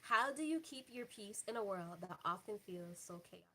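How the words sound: It is said in a professional hostess voice.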